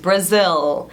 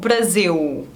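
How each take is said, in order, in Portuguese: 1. A ponta da língua faz o L final. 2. O L final soa como uma vogal, u. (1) "você coloca a língua aqui atrás dos dentes" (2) "mas não"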